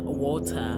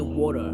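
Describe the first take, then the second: First: It is said in a British-style accent. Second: It is said in an American accent. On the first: "British people and South Africans uh, would say that's how we pronounce uh" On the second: "Americans say water"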